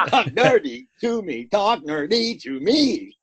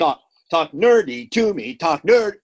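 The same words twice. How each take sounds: First: Second take slow, stress on talk; doubled line reading. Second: Louder, stressing nerdy and nerd; doubled line reading. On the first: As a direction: chant it twice in meter, the second slower. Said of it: "we could do this". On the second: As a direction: repeat the title to fill the meter. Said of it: "I'm gonna double it up". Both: Shown as a demonstration.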